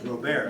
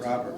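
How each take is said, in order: First: The name is said the French way. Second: The name is said the English way. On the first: This is how the original trader's name was said. The speaker calls it right. "the trader was Robert" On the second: This is how the street name is said today. The speaker calls it wrong. "not Robert"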